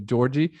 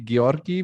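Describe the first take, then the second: First: The name is said with an American pronunciation. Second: The name is said with a Bulgarian pronunciation. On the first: "every American call me Georgie" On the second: "The the correct way would be Georgi, but it's really pure Bulgarian"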